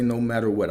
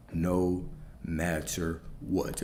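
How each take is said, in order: First: Said in the usual way. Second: "no matter what" lower and drawn out, word by word; slow right down and weigh each word of "no matter what"; slow, low, softer emphasis on "no matter what"; heavy emphasis. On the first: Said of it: "when I say no matter what". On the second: Real, not acted. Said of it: "I cannot emphasize this enough".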